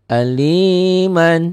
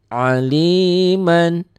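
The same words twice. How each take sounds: No difference in how they are said.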